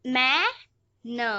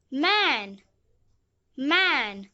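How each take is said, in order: First: मैं and न said as two separate sounds; phonics-style long मैं, then a lone न; sounded out. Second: मैं and न joined into one word मैन; मैन blended, gliding into the final न. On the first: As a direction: break it into मैं, pause, न. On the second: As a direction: say मैन whole, then repeat it. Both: Shown as a demonstration. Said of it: "एन का उच्चारण है".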